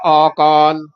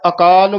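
First: The first vowel is long. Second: The first vowel is short. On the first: The speaker calls it wrong. "ਐੜੇ ਕੰਨਾਂ ਲਾ ਜਾਂਦੇ ਹਾਂ" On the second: The speaker calls it right. "ਸਹੀ ਉਚਾਰਨ ਹੈ"

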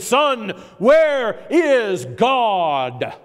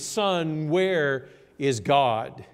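First: It is said sternest, with the loudest voice. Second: It is said sternly at a lower volume.

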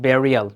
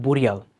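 First: The first vowel is an 'e' sound, like berry. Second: The first vowel is a 'u' sound, like boo. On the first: The speaker calls it right. "সেটাকে বলেছে burial" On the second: The speaker calls it wrong. "not burial"

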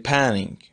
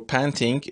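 First: The t is dropped, leaving a nasal tap. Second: The t after the n is pronounced.

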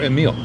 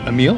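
First: The stress is on the first syllable. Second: The stress is on the second syllable.

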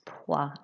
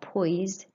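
First: The final S is silent. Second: The final S is pronounced. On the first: The speaker calls it right. "You don't pronounce the S" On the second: The speaker calls it wrong. "It's not poise"

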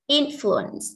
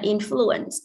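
First: The stress is on the first syllable. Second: The stress is on the second syllable. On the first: The speaker calls it right. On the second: The speaker calls it wrong.

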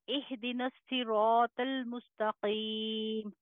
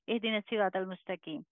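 First: It is said slowly, with pauses. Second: It is said fast, run together.

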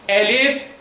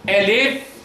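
Both takes have the same delivery.

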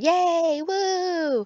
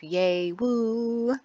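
First: It is said with lots of excitement. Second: It is said flatly, with little excitement.

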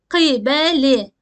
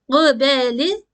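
First: It starts with a deep, back k sound. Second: It starts with a voiced g sound. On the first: The speaker calls it right. "Kaf harfimiz kalın seslidir" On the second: The speaker calls it wrong. "gıbeli ya da kibeli değil"

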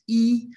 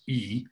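First: It is said with a high pitch. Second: It is said with a low pitch.

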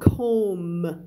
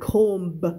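First: The word ends without a B sound. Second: The word ends with a B sound. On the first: The speaker calls it right. "silent, B ... ก็จะอ่านว่า" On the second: The speaker calls it wrong. "ไม่อ่าน"

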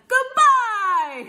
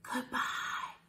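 First: It is said very loudly. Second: It is said very quietly.

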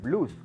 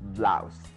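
First: The vowel sounds like a Spanish u. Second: The vowel glides like ow. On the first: The speaker calls it wrong. "Cuidado confundirla con español y decir blues como blusa. No" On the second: The speaker calls it right. "La pronunciación es blouse"

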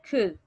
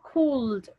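First: No L sound is pronounced in the word. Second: An L sound is pronounced in the word. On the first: The speaker calls it right. "The word is could" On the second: The speaker calls it wrong. "So we don't say could"

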